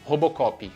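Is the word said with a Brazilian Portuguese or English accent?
Brazilian Portuguese. It is said with a Brazilian Portuguese accent. "Brazilian Portuguese"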